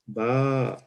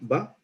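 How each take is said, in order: First: The vowel is held a little longer. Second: The vowel is said short.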